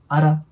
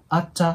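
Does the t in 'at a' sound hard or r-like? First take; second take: r-like; hard. First: The t sounds like a quick r sound. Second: The t is pronounced as a hard t sound. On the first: The speaker calls it right. "アラっていう感じの音になります" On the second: The speaker calls it wrong. "アッチャって発音するよりも"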